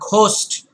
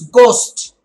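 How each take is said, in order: First: It starts with a breathy, aspirated gh sound. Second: It starts with a plain, unaspirated g sound. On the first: The speaker calls it wrong. "It's not ghost" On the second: The speaker calls it right. "It's ghost"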